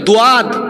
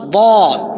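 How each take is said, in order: First: The letter name has two syllables. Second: The letter name has one syllable. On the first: The speaker calls it wrong. "দোয়াদ নয়" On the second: The speaker calls it right. "দোয়াদ নয় বদ"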